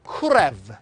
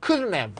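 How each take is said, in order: First: "could have" as "kur-ev", the d flapped to an r sound. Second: "couldn't have" as "kurn-e", the t dropped and the n heard; n sound kept. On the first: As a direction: run "could have" together with an r-like flap. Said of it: "이건 could도 마찬가지야". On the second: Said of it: "N 발음이 들리죠". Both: Shown as a demonstration.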